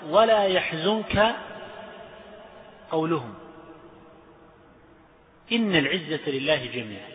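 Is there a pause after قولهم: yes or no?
yes. There is a pause after قولهم. The claim about might is a separate statement. The speaker calls it right.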